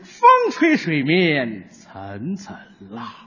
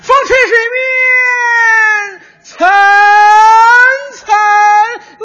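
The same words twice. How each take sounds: First: The pitch is pressed down low. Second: The pitch is lifted up high.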